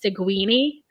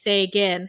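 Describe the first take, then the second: First: The name ends with an added 'ee' syllable. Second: The name is said with two syllables. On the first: This is how other people mispronounce the name. The speaker calls it wrong. "People pronounce it" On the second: This is how the player says his own name. The speaker calls it right. "pronouncing their names"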